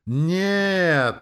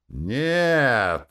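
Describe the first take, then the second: First: Very high, long-held full yell; louder crowd yell. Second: Loud, raised shout; crowd shout. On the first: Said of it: "заорали громче". (протяжный громкий ор) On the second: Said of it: "закричали из толпы". (громкий крик из толпы) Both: A narrator's reading.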